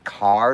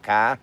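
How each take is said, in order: First: The r at the end is pronounced. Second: The r at the end is dropped. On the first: The speaker is drifting from the home accent. "I do find myself saying car sometimes" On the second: This is the speaker's usual Boston way. "instead of car"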